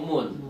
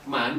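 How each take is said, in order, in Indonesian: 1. Kata ini diucapkan dengan vokal u. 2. Kata ini diucapkan dengan vokal a. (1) "atau mun" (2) "tidak boleh dibaca man"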